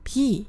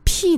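First: The first consonant has no puff of air. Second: The first consonant has a strong puff of air. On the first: The speaker calls it right. "还是要念成p" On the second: The speaker calls it wrong. "送气的部分就太大了"

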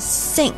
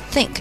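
First: The first sound is a hissing s sound. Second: The first sound is made with the tongue between teeth. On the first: The speaker calls it wrong. "不要发成think，不要发成s 的那个音" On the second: The speaker calls it right. "这个think th 依旧是要咬舌头"

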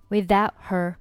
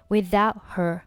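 Both takes have the same delivery.

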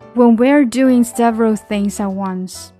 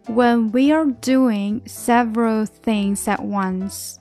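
First: The sentence is read at a faster pace. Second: The sentence is read at a normal pace. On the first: "现在加速读一遍。" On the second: "再来一遍。"

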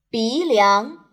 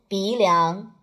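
First: Both syllables rise clearly in pitch. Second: Both syllables stay at a flat pitch. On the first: The speaker calls it right. "接下来2 个阳平的词语" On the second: The speaker calls it wrong. "不要发得很平，变成"

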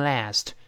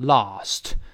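First: The word is said in an American accent. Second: The word is said in a British accent. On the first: "美国读成last" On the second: "英式发音读成lost"

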